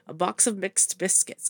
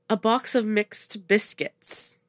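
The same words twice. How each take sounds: First: The phrase is said quickly, repeated at speed. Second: The phrase is said at an ordinary, unhurried pace.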